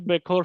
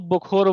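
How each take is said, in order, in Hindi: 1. पहले अक्षर में 'e' स्वर है। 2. पहले अक्षर में 'o' स्वर है। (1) "बेखौर सुनने में थोड़ा अजीब लगता है" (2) "उसको बुखोर बोलते हैं, थोड़ा मतलब अच्छा साउंड करने के लिए"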